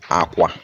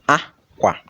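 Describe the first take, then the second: First: Both syllables are on a low tone. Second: The first syllable is high, the second low. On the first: It means bed. "We are using low and low tone" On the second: It means clothes. "We are using high and low tone"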